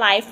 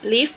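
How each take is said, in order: First: The vowel is long, as in 'five'. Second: The vowel is short, as in 'give'. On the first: It means broadcast as it happens. "ถ้าอ่านว่า live มันแปลว่าถ่ายทอดสด" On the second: It means to be alive or reside. "แปลว่าใช้ชีวิต"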